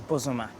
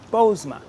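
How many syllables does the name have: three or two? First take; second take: three; two. First: The name is said with three syllables. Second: The name is said with two syllables. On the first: This is the traditional local pronunciation. "the proper pronunciation of the Nzima people in the Western region" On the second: This is the English-adapted pronunciation. "the anglicized version ... The long O, two syllables"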